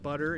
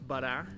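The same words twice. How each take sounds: First: It is said in the speaker's normal accent. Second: It is said in an imitated Australian accent. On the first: "Instead of butter" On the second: "it's butter"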